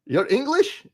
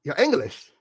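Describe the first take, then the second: First: Mock British accent, squeaky high incredulous rise; mock British accent, shocked high question. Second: Mock British accent, falling, less high; mock British accent, flat deadpan repeat. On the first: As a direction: tease in a put-on British accent, pitch soaring up. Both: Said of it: "I am very good with the accent".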